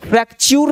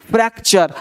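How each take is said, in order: First: फ्रैक्चर ending in 'chyoor'; wrong pronunciation. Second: फ्रैक्चर ending in a weak 'cher'; correct pronunciation. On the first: Teacher showing what not to say, wrong pronunciation. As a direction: give फ्रैक्चर a long U in the last syllable. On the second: Teacher modelling the ending, correct pronunciation. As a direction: say फ्रैक्चर with 'uh' in the last syllable. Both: Shown as a demonstration. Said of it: "फ्रैक्चर नहीं बोलेंगे".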